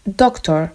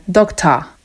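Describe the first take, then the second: First: Said in the usual way. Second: "dokta" with the r dropped, open a at the end; Cockney "dokta", final a instead of or. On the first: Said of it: "jak normalny Anglik powie". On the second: Shown as a demonstration. Teacher showing Cockney "dokta" to students. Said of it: "to Cockney powie dokta".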